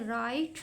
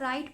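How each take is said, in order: First: The word begins with a W sound. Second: The word begins with an R sound. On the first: The speaker calls it wrong. "राइट नहीं पढ़ते" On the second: The speaker calls it right. "हम इसको राइट पढ़ते हैं"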